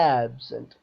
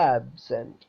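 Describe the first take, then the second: First: The stress is on the first syllable. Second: The stress is on the first syllable.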